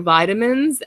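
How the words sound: It is said with an American pronunciation. "In American English, you would say vitamins"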